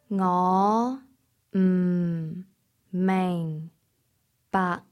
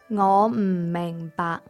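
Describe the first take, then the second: First: It is said more slowly. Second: It is said at normal speed.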